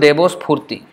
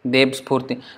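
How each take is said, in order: First: The first word ends in an 'o' vowel. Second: The first word ends in a consonant. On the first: The speaker calls it right. "they say ishto debo spurti" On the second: The speaker calls it wrong. "from deb spurti is a little bit difficult to pronounce"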